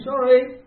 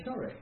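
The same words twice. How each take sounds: First: High, loud "Sorry" called out to the other driver; loud apology. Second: "Sorry" said higher but much softer, with a falling end; soft apology. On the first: Driver apologises to the car he cut up, calling out. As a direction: shout "Sorry" across the road. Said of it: "first thing I've done is gone". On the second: Driver raises a hand to the other car, soft apology. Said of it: "put my hand up and say". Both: Retold or imitated.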